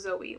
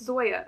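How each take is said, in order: First: The name ends in an 'ee' sound. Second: The name ends in a 'ya' sound. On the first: The speaker calls it wrong. "and not Zoe, which is what I said last time" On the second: The speaker calls it right. "I did learn that it's Zoya"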